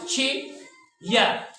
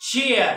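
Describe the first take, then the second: First: chair very slowly as chee ... ya; long gap between the two sounds of chair; drawn-apart two-beat demo; syllable by syllable. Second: Said in the usual way. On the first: Shown as a demonstration. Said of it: "एक sound हो गया". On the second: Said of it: "पढ़ते किस तरह हैं?".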